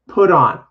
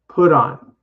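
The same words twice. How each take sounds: The two takes are said the same way.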